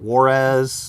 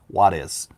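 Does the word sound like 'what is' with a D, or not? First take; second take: not; with D. First: The word does not sound like 'what is'. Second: The word sounds like 'what is' with a D. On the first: The speaker calls it wrong. "I was calling it Juarez" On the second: The speaker calls it right. "say what is, but replace the T with a D"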